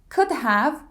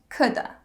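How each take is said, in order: First: Both words are said fully and separately. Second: 'Have' shrinks to a schwa sound.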